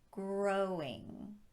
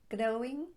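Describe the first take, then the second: First: The R is made with rounded, pushed-out lips. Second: The R is a quick tap of the tongue. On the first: The speaker calls it right. "but growing" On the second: The speaker calls it wrong. "Not growing"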